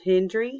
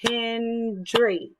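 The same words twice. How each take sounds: First: Said in the usual way. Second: HEN-DRY, higher, in two long beats; syllable by syllable. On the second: Shown as a demonstration. Teacher showing how to clap her surname, "Hendry" in two beats. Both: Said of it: "this is how I would do that".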